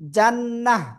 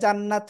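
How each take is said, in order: First: The word ends in a soft h sound. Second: The word ends in a bare t sound. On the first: The speaker calls it right. "জান্নাহ এমন হবে" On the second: The speaker calls it wrong. "থেমে পড়লে জান্নাত হয় না"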